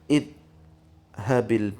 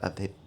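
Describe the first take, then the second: First: The word begins with an 'i' vowel. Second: The word begins with an 'a' vowel. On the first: The speaker calls it wrong. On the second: The speaker calls it right.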